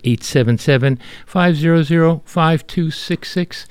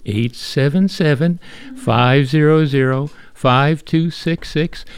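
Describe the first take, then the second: First: The number is said at normal speed. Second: The number is said more slowly.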